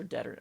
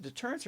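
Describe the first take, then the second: First: Deter- with the stress on the first syllable, DET-er; alternative pronunciation. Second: Deterrence with the stress on the second syllable, de-TUR-ence; questioned pronunciation. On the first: Card reviewer trying the other reading, Deter- as DET-er. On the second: Card reviewer unsure how to say it, Deterrence as de-TUR-ence. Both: Shown as a demonstration. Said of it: "how do you say it?".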